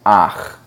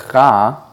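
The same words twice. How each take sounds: First: "ach" with the a before the guttural ch; right reading. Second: "cha" with the ch before the a, the incorrect order; wrong reading. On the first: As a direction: say "ach", vowel first, then the ch. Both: Shown as a demonstration. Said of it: "you would read it ach".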